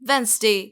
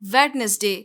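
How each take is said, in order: First: No d sound is heard in the middle. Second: A d sound is heard in the middle. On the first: The speaker calls it right. "इसमें डी का sound बिल्कुल भी नहीं है।" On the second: The speaker calls it wrong. "जो कि बिल्कुल गलत है।"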